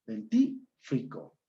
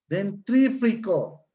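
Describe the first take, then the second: First: DENTÍFRICO slowly, no R after T; high, split den-TÍ, then fri-co; correct pronunciation. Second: DENTRÍFRICO with an extra R after T, high, slow; metathesis pronunciation. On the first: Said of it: "es dentífrico". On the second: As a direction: draw out "Dentrífrico" as den-TRÍ-fri-co. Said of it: "No es dentrífico". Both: Shown as a demonstration.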